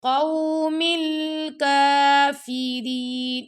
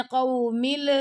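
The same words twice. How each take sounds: First: Slow chanted قوم الکافرین with a smooth l; no hardness. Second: قوم ال- with a hard bounce on the final l; wrong qalqalah. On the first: Teacher showing students the correct قوم الکافرین, smooth chant. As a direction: glide through the ل in قوم الکافرین. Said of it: "سختی نہیں دینی ہم نے". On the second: Teacher showing students the mistake, قوم ال- with echoed l. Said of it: "کلکلا ہو جائے گا ایسے". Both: Shown as a demonstration.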